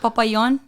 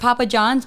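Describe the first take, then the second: First: The J is said like a Y. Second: The J is said as an English J.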